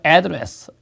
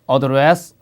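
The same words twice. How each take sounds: First: The stress is on the first syllable. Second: The stress is on the second syllable. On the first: It is the noun for a mailing address. "앞에다가 강세를 두게 되면 주소" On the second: It is the verb meaning to speak to or deal with. "말하다, 대처하다 이런 동사"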